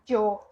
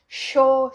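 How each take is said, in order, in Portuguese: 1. Começa com um 'j' forte. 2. Começa com um 'sh' chiado. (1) "Pode ter do J, que é algo mais marcado" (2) "o chiado argentino e pedaço ali do Uruguai"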